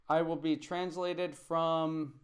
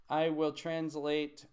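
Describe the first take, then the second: First: Said in the usual way. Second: Slow, stressing I will translate; corrected version. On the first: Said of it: "This is the mistake". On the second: Shown as a demonstration. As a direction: give the fixed form slowly. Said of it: "Not I will be".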